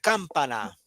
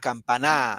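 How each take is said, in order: First: The stress is on the first syllable. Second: The stress is on the last syllable. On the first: "Si fuera en cam, diría campana" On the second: "Si fuera en na, campaná"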